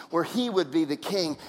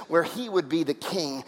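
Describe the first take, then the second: No difference in how they are said.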